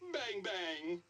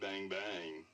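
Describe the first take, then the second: First: It is said in a happy tone. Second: It is said in a flirty tone.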